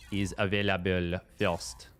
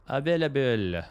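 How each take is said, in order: First: Said in the usual way. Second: Mock French accent. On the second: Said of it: "Some French accent".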